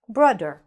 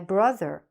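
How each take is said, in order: First: The middle consonant is a d sound. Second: The middle consonant is a th sound. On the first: The speaker calls it wrong. "instead of saying brother, you pronounce it brudder" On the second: The speaker calls it right. "You should be saying the th properly, like a th"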